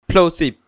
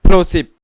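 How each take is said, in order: First: The p sound is soft without a burst. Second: The p sound pops with a loud burst. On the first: The speaker calls it right. "पॉप filter के प्लोसिप बोलूंगा" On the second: The speaker calls it wrong. "बिना pop filter के प्लोसिप बोलूंगा"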